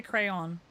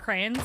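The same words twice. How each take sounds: First: "crayon" in two clear syllables, "cray-on"; local pronunciation. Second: "crayons" squashed to "crayns"; others' pronunciation. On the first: Shown as a demonstration. Correcting with what we say here, "cray-on". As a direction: sound both halves of "crayon": "cray-on". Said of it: "No, we say crayon here". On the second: Retold or imitated. Showing what other people say, one-syllable "crayns". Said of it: "a lot of people say".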